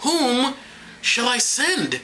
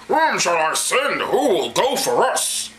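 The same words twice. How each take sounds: First: High, measured question with a pause; raised, unhurried reading voice; plainer scripture reading. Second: Slow, booming mock-divine call; drawn-out hammy voice of God; God's voice. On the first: Acted. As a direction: read it lightly, pausing after the first word. First take, before apologising to God. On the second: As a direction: intone it grandly as the Almighty. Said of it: "Sorry, God".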